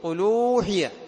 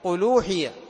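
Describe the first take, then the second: No difference in how they are said.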